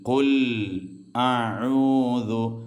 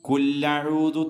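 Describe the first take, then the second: First: The two words are kept separate with a glottal catch. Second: The two words are run together with a doubled l. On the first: The speaker calls it right. "മറിച്ച് കുൽ കുൽ അഊദു" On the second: The speaker calls it wrong. "കുല്ലഊദു തെറ്റാണ്"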